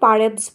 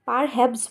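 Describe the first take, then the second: First: The h sound in the middle is dropped. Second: The h sound in the middle is pronounced. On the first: The speaker calls it right. "আমরা কিন্তু পারহ্যাপস বলি" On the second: The speaker calls it wrong. "পারহ্যাপস বলি না"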